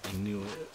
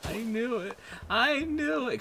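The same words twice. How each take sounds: First: Said in the usual way. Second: "I knew it" jumping much higher, then louder; rising to a squeal of being proven right; building vindicated cry. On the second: Real, not acted. Fearing the players didn't care, rising squeal of vindication.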